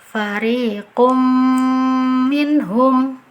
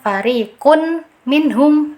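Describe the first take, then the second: First: The m merges with a nasal held two counts. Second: A clear separate n is pronounced before minhum. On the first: The speaker calls it right. "Cara baca yang betul" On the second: The speaker calls it wrong. "itu izhar, itu keliru ya"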